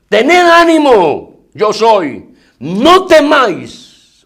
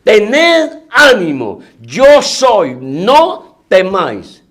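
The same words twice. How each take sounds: First: Slow, high, ringing words of comfort; Jesus calming them. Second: Slower, drawn out, in a changed voice; Jesus' words again. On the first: Jesus to his frightened apostles, slow and commanding comfort. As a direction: lift each word slowly over the storm. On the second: Preacher repeats Jesus' words to the congregation, slow and solemn. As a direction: let each word hang, solemn and slow. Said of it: "Oiga la palabra de nuestro Señor". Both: Acted.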